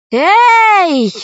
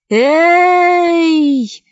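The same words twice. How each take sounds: First: Loud high call down a well; shout. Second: Distant echoing call; cave echo. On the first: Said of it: "крикнула Алиса вниз". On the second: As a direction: sound like an echo from far below. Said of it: "Эхо отозвалось". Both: Acted.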